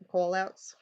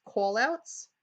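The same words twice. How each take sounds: First: New York accent. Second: New York accent on call outs. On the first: Shown as a demonstration. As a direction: call outs repeated in a New York accent. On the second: Real, not acted. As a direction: says call outs New Yorker style. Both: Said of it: "excuse my New York accent".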